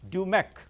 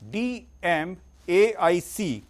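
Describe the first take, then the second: First: It is said as one blended word. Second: Each letter is said separately. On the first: "the pronunciation is" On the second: "The spellings are"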